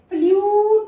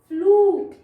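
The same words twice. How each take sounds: First: The vowel is said as 'yoo'. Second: The vowel is said as a plain long 'oo'. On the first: The speaker calls it wrong. "फ्लूट नहीं है" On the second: The speaker calls it right. "यहाँ पे भी ऊ का sound है"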